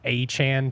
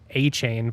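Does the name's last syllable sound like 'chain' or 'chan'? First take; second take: chan; chain. First: The last syllable sounds like 'chan'. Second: The last syllable sounds like 'chain'. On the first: This is the pronunciation recently reported. "now I've heard it's A Chan potentially is how you pronounce it" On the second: This is the pronunciation long assumed. "I always thought it was A Chain"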